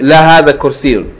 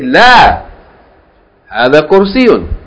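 First: It runs on without a pause after la. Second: There is a pause right after la. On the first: The speaker calls it wrong. "Don't say la hadha kursiyun" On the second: The speaker calls it right. "to make a pause in the middle of your answer"

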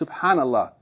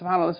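First: It is said slowly, unhurried. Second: It is said quickly, rushed. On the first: The words are recited with reflection. The speaker calls it right. "with reflection and contemplation" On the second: The words are recited without thought. The speaker calls it wrong. "instead of saying"

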